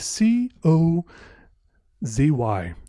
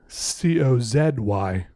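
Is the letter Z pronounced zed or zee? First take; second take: zee; zed. First: Z is said the American way, as zee. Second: Z is said the Canadian way, as zed.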